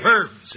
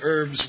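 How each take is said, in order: First: The word begins with an audible h sound. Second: The word begins with a vowel, no h sound. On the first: "it's more and more proper to pronounce the H" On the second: "with a silent H"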